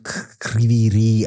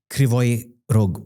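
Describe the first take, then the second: First: The name ends in an h sound. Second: The name ends in a g sound. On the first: This is the form others now use. "now they call it Kryvyi Rih" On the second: This is the speaker's own habitual form. "it is Kryvyi Rog for me"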